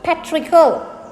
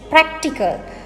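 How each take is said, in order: First: The k sound before the t is dropped. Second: The k sound before the t is pronounced. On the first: The speaker calls it wrong. "not patrical" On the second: The speaker calls it right. "And it is practical"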